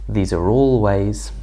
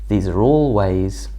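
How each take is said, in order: Both takes have the same delivery.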